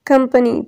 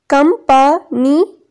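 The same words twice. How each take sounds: First: Said in the usual way. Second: कंपनी slowly broken into three beats; syllable by syllable. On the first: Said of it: "ये इसकी pronunciation भी given है". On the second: Shown as a demonstration. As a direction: pause after each syllable of कंपनी: कं, प, नी. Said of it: "ये three इसके syllables हैं". (کمپنی کو الگ الگ تین حصوں میں: कं, प, नी)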